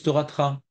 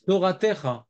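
First: "Toratra" with no vowel between T and R; Tunisian-style "Toratra", three syllables; Tunisian dropped vowel. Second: "Toratecha" with a clearly sounded E in "te"; "Toratecha", vowel kept after the T; full vowel form. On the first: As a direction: run T straight into R in "Toratra". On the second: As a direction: say all four syllables of "Toratecha". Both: Shown as a demonstration. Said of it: "Ils disent Toratra".

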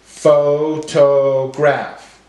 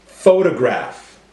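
First: Pho... to... graph, very slow; broken into syllables. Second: Said in the usual way. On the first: Shown as a demonstration. Teacher breaking up words for class, syllable by syllable. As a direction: give every syllable full weight, slowly. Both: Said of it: "break up our words into syllables".

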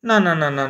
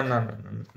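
First: Said in the usual way. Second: Muttered much softer and lower, fading out; defeated mumble under the breath; trailing-off quiet no's. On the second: Real, not acted. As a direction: let the no's die away in disbelief.

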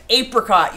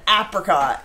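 First: APRICOT with a long A as in ape; long-A pronunciation. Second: APRICOT with a short A as in apple; short-A pronunciation. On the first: Streamer quoting Hannah's way of saying it, apricot with long A. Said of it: "an ape is a monkey". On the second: Streamer confirming how she says it, apricot with short A. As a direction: say "apricot" starting like the vowel in cat. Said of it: "that's how I say it". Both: Shown as a demonstration.

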